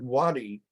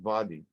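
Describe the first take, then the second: First: The word begins with a W sound. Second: The word begins with a V sound. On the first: This is the Arabic form of the word. "is the Arabic word for a valley" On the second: This is the Hebrew form of the word. "there's no W in Hebrew. So they use the vav sound"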